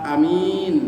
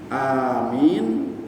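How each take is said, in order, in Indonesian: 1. Vokal pertama dibaca pendek. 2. Vokal pertama dibaca panjang. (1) "kalau a-nya tidak panjang" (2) "a-nya mad panjang"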